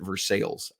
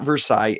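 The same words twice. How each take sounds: First: The name is said the Kentucky way. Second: The name is not said the Kentucky way. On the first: The speaker calls it right. "In Kentucky, they pronounce it Versailles" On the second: The speaker calls it wrong. "it's not Versailles"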